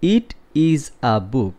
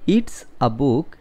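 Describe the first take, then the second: First: 'It is' is said as two full words. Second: 'It is' is shortened to one syllable.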